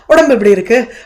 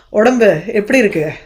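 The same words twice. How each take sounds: First: It is asked as a plain, ordinary question. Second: It is asked in a loaded, sarcastic tone.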